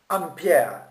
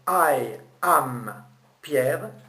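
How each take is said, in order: First: The opening 'I' is dropped entirely. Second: The opening 'I' is clearly pronounced. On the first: "zapper un peu le I du jeu pour garder que le M de am" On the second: "au lieu de dire I am Pierre"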